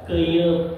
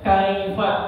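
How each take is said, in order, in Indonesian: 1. Diucapkan seperti keyup, diakhiri dengan p. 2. Diucapkan seperti kaifa, diakhiri dengan fa. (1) "Dibacanya apa? Keyup katanya gitu" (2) "padahal dibacanya kaifa, bukan keyup"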